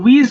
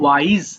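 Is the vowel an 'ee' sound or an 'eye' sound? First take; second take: ee; eye. First: The vowel is an 'ee' sound. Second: The vowel is an 'eye' sound. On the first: The speaker calls it wrong. "এটা অনেকে উইজ বলে ফেলো" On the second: The speaker calls it right. "এটা হবে ওয়াইজ"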